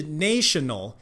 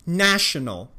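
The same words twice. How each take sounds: First: National 误念成 nay 开头的 neɪʃənəl; 故意把 national 念成 nation 的 eɪ 音; wrong national. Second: National 念成短 æ 开头的 næʃənəl; right national. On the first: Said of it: "不是national". (示范错误念法) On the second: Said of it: "是national". (示范正确念法) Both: Shown as a demonstration.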